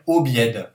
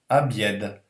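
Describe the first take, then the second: First: The first vowel is a full, clear 'o'. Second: The first vowel is weakened toward an 'a'. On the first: The speaker calls it wrong. "c'est un O, on devrait dire obied" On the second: The speaker calls it right. "le O est atténué et devient un peu A"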